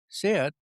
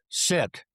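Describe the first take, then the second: First: The command sounds soft and hesitant. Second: The command sounds firm and authoritative. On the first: Obeying is optional. The speaker calls it wrong. "that sounds optional" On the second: The order must be obeyed. The speaker calls it right. "that sounds like you meant it"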